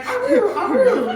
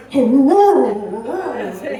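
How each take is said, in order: First: High, yappy little puppy howl. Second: Low, loud, chesty grown-dog bark; deep dog howl. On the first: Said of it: "He used to be like". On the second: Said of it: "Now he's like". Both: Retold or imitated.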